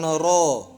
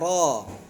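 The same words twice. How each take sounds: First: The r is said with lips pushed forward. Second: The r is said with lips kept back. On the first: The speaker calls it wrong. "bukan ro" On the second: The speaker calls it right. "seolah-olah orang nggak bisa menyebutkan huruf r"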